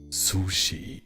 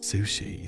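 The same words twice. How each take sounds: First: It is said strongly, with a German accent. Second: It is said softly, with an English accent. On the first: "in German sushi, ... It's like really strong" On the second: "in like English it would be sushi"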